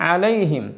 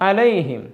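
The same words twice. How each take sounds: The two takes are said the same way.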